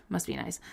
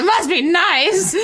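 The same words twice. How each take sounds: First: Dry aside. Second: Slow, drawn-out, higher mock envy. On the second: Rereading the line to her cohost, slow and mocking. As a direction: stretch it out like a jealous sigh. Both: Shown as a demonstration. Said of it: "I don't know why I said it like that".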